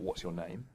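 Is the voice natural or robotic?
natural. It is said in a normal human voice.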